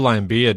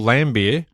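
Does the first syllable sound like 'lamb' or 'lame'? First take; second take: lame; lamb. First: The first syllable sounds like 'lame'. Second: The first syllable sounds like 'lamb'. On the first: The speaker calls it wrong. "you've gone and mispronounced it" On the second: The speaker calls it right. "Nailed it"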